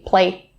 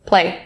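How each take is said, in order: First: The final s sound is left off. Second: The same.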